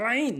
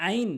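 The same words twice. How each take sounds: First: "আইন" squeezed from mid-throat; correct pronunciation. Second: "আইন" with a plain open a; wrong pronunciation. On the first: Teacher models the Arabic letter, throaty "আইন". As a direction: open "আইন" with a constricted throat sound. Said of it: "সঠিক উচ্চারণ হচ্ছে". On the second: Teacher shows learners the mistake, plain-vowel "আইন". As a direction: say "আইন" without any throat sound. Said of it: "ভুল উচ্চারণ". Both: Shown as a demonstration.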